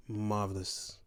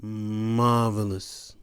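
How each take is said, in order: First: Soft murmur. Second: Marvelous stretched slowly, each syllable savored; drawn-out praise. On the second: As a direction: draw out Marvelous slowly as if tasting it. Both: Real, not acted.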